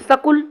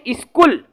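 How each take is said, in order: First: A vowel separates the s and k. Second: The s and k are said together. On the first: The speaker calls it wrong. "इसी को कई जने क्या कहते हैं, सकुल ... ऐसा नहीं है" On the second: The speaker calls it right. "अब इसको हम कहते हैं स्कूल"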